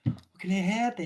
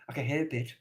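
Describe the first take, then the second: First: Higher take. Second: Said in the usual way. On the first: Shown as a demonstration. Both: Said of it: "repeated in a new voice".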